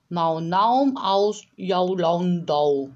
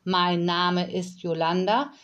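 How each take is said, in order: First: "Mau Naum aus Jaulandau" with every vowel turned into au, slow and loud; drawn-out au sounds in "Mau Naum aus Jaulandau"; Kauderwelsch demo. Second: Said in the usual way. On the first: Shown as a demonstration. Nanny demonstrates the au language to Yolanda, saying "Mau Naum aus Jaulandau" slowly. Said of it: "großen Teil aus Aulauten". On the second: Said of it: "Der Satz".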